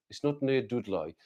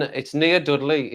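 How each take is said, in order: First: Put-on Black Country twang, Dudley as "Dudloy"; mock-broad Black Country accent. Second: Said in the usual way. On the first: Shown as a demonstration. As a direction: exaggerate the Black Country vowels. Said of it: "I don't talk like that".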